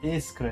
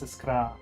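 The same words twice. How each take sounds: First: The stress is on the first syllable. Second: The stress is on the last syllable. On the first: The speaker calls it wrong. "not on the first" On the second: The speaker calls it right. "the emphasis is on the last"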